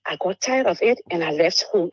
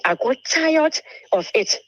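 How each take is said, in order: First: Said in the usual way. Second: Higher and slow, leaning on every word; fed up. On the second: Real, not acted. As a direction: let the weariness spill out, drawn out and pushed up. Exhausted outburst about the abuse.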